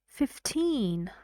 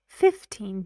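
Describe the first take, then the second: First: The stress is on the last syllable. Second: The stress is on the first syllable. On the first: "when I say the word alone, or at the end of a sentence, or before a pause, I should say fifteen" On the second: "The stress got moved"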